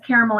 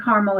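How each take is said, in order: First: Caramel said as CARE-uh-mel; caramel in three syllables, CARE-uh-mel; caramel, full middle syllable. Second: Caramel said as CAR-mul; caramel in two syllables, CAR-mul; caramel as carmel. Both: Shown as a demonstration. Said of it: "she says caramel and caramel as well".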